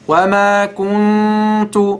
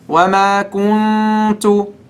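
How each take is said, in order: Both takes have the same delivery.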